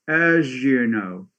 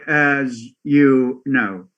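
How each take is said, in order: First: The z and you merge into zh. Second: The z and you are kept separate. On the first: The speaker calls it right. "So the za goes to ja" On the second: The speaker calls it wrong. "they don't say as you know"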